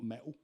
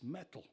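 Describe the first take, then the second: First: The word is said casually, without careful consonants. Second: The word is said carefully, with clear consonants. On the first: The speaker calls it wrong. "It's not metal" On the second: The speaker calls it right. "you've got to speak properly"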